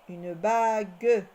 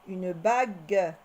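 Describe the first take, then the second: Both takes have the same delivery.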